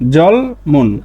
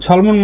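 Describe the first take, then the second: First: The word begins with a voiced j sound. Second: The word begins with a voiceless ch sound.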